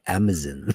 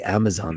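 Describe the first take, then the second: First: Amazon is said the British way. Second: Amazon is said the non-British way. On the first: "They say Amazon" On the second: "They don't say Amazon"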